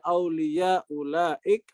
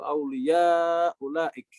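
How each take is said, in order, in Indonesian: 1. Vokal panjang itu ditahan sebentar, durasinya pendek. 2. Vokal panjang itu ditahan lebih lama, durasinya sedang.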